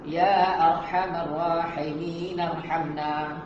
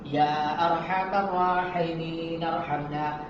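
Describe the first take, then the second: First: It is read quickly, running straight into the last word. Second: It is read quickly, running straight into the last word.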